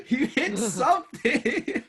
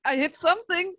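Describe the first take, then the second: First: High, slow laughing mockery; mocking laugh. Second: High, laughing protest. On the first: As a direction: echo him back, laughing at him. Mocking echo of player. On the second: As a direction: insist on it through a laugh. Defending bad roll, laughing. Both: Real, not acted.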